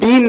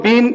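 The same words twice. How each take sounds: The two takes are said the same way.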